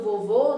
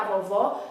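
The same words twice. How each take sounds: First: VOVÔ with closed "oh" vowels. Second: VOVÓ with open "aw" vowels. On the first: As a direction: keep the final O of "vovô" closed and rounded. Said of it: "o som da palavra vovô é mais fechado". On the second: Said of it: "o som da palavra vovó é aberto". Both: Shown as a demonstration.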